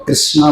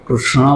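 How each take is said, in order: First: कृष्णा with a plain dental s and dental n; Krishna, dental s. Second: कृष्णा with retroflex ष and ण, tongue curled back; Krishna, retroflex sh. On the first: Teaching how people say the name, कृष्णा with a plain s. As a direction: say कृष्णा the simple northern way, krisna. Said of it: "कृष्ण बोले या कृष्ण बोले". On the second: Teaching the hard pronunciation, कृष्णा with retroflex ष and ण. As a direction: say कृष्णा as krushna, curling the tongue. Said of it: "अणा बोलने में भी सबको". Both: Shown as a demonstration.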